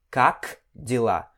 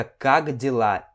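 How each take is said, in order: First: "как дела" split apart, "как" ending in a crisp, voiceless K; over-articulate the final K of "как", pause, then "дела"; hard K, not G. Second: "как дела" run together as "kag dela", with a G; K voiced as G. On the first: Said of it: "e não как дела". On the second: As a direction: soften the final K of "как" into a G before "дела". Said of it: "esse K meio que vira um G". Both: Shown as a demonstration.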